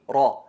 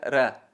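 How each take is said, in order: First: The r is heavy, with a full, darkened vowel. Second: The r is light, with a thin, clear vowel. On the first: "la enfatizada sería" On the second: "Y la atenuada sería"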